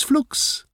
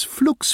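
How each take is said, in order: First: The same word breathed as a whisper; whispered echo. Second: High, loud cry of the last magic word; high spell call. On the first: Petunia whispers the spell's last word. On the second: Petunia ends her spell with a high call. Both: Acted.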